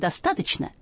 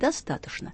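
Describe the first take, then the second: First: The word is said with a 'ch' sound before 'n'. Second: The word is said with a 'sh' sound before 'n'. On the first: This is the younger speakers' form, said as written. "«достаточно» и пишется «че»" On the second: This is the older speakers' traditional form. "А старшие будут говорить «достаточно»"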